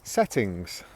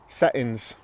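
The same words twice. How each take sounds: First: The T sound is clearly pronounced. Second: The T sound is dropped. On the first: "That's the received pronunciation version" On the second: "You can see I've completely dropped the T"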